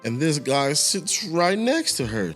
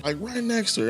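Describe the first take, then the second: First: "next" leaned on, slow and high; "right next to her" with "next" stressed. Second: "next" much higher and hammered; "right next to her" with "next" punched way up; strong stress on next. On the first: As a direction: drag out "next" a little for effect. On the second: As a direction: hit "next" hard and high. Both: Shown as a demonstration.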